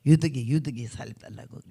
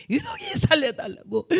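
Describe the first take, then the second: First: Said in the usual way. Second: Imitated anguished cry, very high; retold screechy Jeolla prayer wail. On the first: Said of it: "전라도 사람들이 있으면 알겠지만". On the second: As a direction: wail a desperate plea in Jeolla dialect. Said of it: "그 기가 막힌 절규의 기도".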